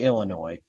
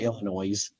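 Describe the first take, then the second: First: The final S is silent. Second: The final S is pronounced. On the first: The speaker calls it right. "we we say Illinois" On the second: The speaker calls it wrong. "We don't say Illinois"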